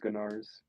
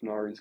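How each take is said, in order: First: A G sound is voiced before the N. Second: The word starts directly with an N sound.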